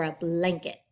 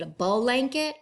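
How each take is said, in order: First: Blanket with b straight into l; a blanket with no vowel inside the bl; blended bl. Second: Blanket said as ball-anket; a blanket with a long vowel splitting b and l; vowel inserted in blend. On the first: Teacher asking which blanket is right, cleanly blended version. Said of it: "getting those sounds together". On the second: Teacher asking which blanket is right, wrong split version. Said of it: "sounds like there's a vowel in there". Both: Shown as a demonstration.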